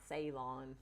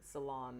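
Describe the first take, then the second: First: The word does not sound like 'salon'. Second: The word sounds almost like 'hair salon'. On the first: The speaker calls it wrong. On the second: The speaker calls it right. "So almost like hair salon?"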